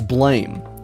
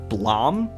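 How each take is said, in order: First: The vowel is an 'ay' sound. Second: The vowel is an open 'ah' sound. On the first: This is how the name is written. "But it obviously says Blame" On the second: This is how other people say the name. "I've seen people say Blom for the name of the manga"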